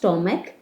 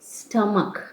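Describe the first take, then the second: First: The first vowel sounds like the o in stop. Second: The first vowel sounds like the u in cup. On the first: The speaker calls it wrong. "Not સ્ટોમક" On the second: The speaker calls it right. "It is સ્ટમક"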